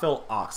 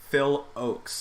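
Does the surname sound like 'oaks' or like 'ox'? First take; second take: ox; oaks. First: The surname sounds like the word 'ox'. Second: The surname sounds like the word 'oaks'. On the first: The speaker calls it wrong. "not Phil Ox" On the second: The speaker calls it right. "I had my pronunciation wrong"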